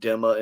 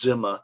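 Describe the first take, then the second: First: The word starts with a plain D sound. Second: The word starts with a blended DZ sound. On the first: This is the common Western form. The speaker calls it wrong. "in the West, we call it Dhamma" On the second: This follows the Arabic letter. The speaker calls it right. "The correct pronunciation is Zimma. It's like a D Z sound together"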